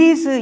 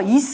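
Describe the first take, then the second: First: The word ends without a hissing s sound. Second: The word ends with a hissing s sound. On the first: The speaker calls it right. "이 경우에는 is라고 읽으셔야 돼요" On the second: The speaker calls it wrong. "s 발음인데요. is 하면 안 돼요? 안 됩니다"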